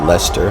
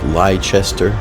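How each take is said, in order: First: The name is said the local way. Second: The name is said the way it is spelled. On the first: "but it's pronounced Leicester" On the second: "it looks like Leicester"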